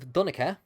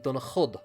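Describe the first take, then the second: First: The name ends in a vowel sound. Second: The name ends with a 'd' sound. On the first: This is the later form of the name. "which would be the modern Irish" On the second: This is the older form of the name. "in Old Irish it would be Dunachud"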